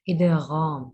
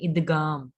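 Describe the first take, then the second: First: The middle consonant is a heavy throaty gh. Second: The middle consonant is a plain hard g. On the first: The speaker calls it right. "इसको मोटा ही पढ़ें" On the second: The speaker calls it wrong. "गाफ नहीं पढ़े, ... ऐसे नहीं"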